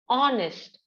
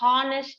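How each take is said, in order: First: The word starts with a vowel sound. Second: The word starts with an h sound. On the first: The speaker calls it right. "No H sound. So we pronounce it as honest" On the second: The speaker calls it wrong. "We don't pronounce honest man"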